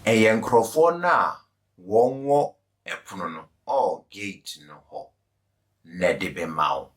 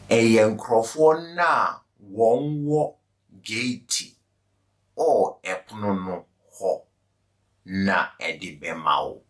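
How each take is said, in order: First: It is said at normal speed. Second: It is said slowly.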